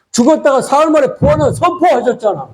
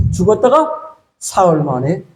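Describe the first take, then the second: First: Higher, with 만에 punched; proclaiming. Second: Said in the usual way. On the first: Shown as a demonstration. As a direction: lift the pitch to proclaim 만에. (만에를 높여 선포하듯)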